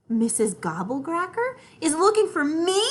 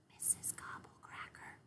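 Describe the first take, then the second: First: High, loud amazed question; amazement. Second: Soft breathless whisper of the name. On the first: Acted. Little sister amazed she is being hunted, high and loud. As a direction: blurt it out amazed. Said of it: "I say in amazement". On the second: Shown as a demonstration. Brother showing how to say the scary name, whispered. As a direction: whisper the name as if she might hear. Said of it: "you have to whisper when you say her name".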